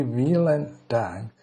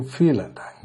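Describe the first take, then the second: First: "vielen Dank" with an English v: "veelen dank"; English misreading. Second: "vielen Dank" with the v as f: "feelen dunk"; German pronunciation. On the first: Teacher showing the wrong English reading of the word, pronunciation. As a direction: read "vielen" the way an English speaker would, hard v. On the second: Teacher correcting the English reading for students, pronunciation. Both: Shown as a demonstration. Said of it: "but it's actually".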